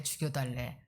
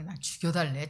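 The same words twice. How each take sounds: First: Trailing mock demand. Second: Mock demand. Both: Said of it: "막".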